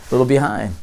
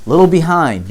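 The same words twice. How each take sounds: First: Said in the usual way. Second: "little behind" stressed for emphasis; pointed repeat. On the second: Shown as a demonstration. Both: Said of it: "you planted a seed".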